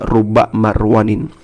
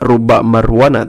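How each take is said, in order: First: The last word ends in an in sound. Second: The last word ends in a plain a sound. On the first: The speaker calls it right. "tetapi dibaca" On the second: The speaker calls it wrong. "ulah dibaca"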